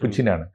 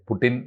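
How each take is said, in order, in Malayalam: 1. മധ്യത്തിലെ വ്യഞ്ജനം 'ch' ശബ്ദമാണ്. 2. മധ്യത്തിലെ വ്യഞ്ജനം 't' ശബ്ദമാണ്. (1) "പുടി പുച്ചിനാണ്" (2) "പുടിൻ എന്നല്ല ശരിയായ ഉച്ചാരണം"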